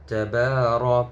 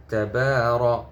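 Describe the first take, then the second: No difference in how they are said.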